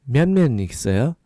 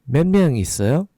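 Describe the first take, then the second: The two takes are said the same way.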